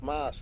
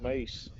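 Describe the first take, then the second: First: The vowel sounds like the one in 'ice'. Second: The vowel sounds like the one in 'face'. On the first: The speaker calls it right. "it's mice" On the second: The speaker calls it wrong. "not mace"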